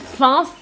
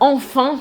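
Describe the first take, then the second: First: The first syllable is left out. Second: Both syllables are said. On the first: "on a avalé la première syllabe" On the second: "à la place de dire enfin"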